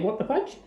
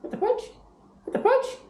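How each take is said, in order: First: Said in the usual way. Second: Very high squeaky "What the fudge?"; parrot phrase prompt. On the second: Shown as a demonstration. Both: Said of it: "can you say".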